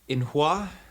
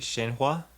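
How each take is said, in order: First: The word begins with a vowel sound. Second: The word begins with a 'sh' sound. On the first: The speaker calls it wrong. "I know I'm going to say this wrong" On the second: The speaker calls it right. "sometimes it's more like Shay"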